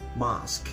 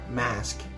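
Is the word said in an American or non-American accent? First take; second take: non-American; American. First: It is said in a non-American accent. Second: It is said in an American accent.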